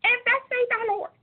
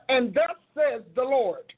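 First: High squeaky preacher voice on "And thus says the Lord"; Minnie Mouse voice. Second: Slow, full, grounded "And thus says the Lord"; mature preacher voice. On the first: Retold or imitated. Mocking her own early preaching recordings in a high squeaky voice. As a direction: squeak it out like a tiny cartoon mouse. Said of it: "I sound like Minnie Mouse". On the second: Shown as a demonstration. Showing how her preaching voice matured, slow and weighty. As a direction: proclaim it with grown authority. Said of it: "Baby, I moved up".

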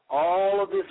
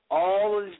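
No difference in how they are said.

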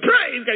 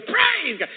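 First: High, very loud cry of praise; sudden loud burst of praise; retold praise shout. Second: Very high, loud shout of praise; imitating a piercingly high cry of worship; angel's praise cry. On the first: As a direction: shout it out in worship. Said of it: "I went". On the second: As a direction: echo the praise, pitched right up. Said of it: "He goes".

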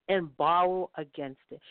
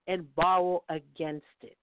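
The two takes are said the same way.

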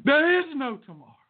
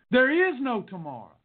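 First: High, quick, punchy movie-coach shout; hammed-up movie quote, pitched high; Rocky impression. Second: Urgent film-coach line, slightly raised; dramatic movie-line urgency; Rocky quote. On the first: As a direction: fire off the film line urgently. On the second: Acted. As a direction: hammer it like a movie pep talk. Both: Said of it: "It came from Rocky".

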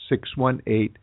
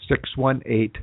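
Both takes have the same delivery.

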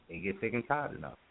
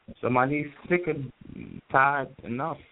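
First: Said in the usual way. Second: Stretched slow "sick and tired enough"; emphatic sick and tired. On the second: Shown as a demonstration. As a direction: lean hard on "sick" with rising tune. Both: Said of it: "the tone, the inflection".

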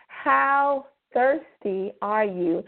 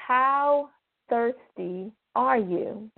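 The two takes are said the same way.

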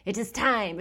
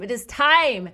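First: Said in the usual way. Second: "time" said louder and higher, landing firmly; building excitement, louder; emphatic announcement. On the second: Shown as a demonstration. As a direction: proclaim it like a big reveal.

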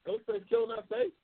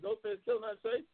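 First: Much higher, stunned repeat of the question; can't believe what he just read; real disbelief, pitch jumping way up; incredulous. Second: Said in the usual way. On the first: Real, not acted. Reading a chat comment, disbelieving.

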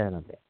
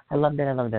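First: "I loved it." said much softer, fading away; softer dreamy echo of "I loved it."; trailing soft repeat. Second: Said in the usual way. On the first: Real, not acted. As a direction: let "I loved it." fall away to almost nothing.

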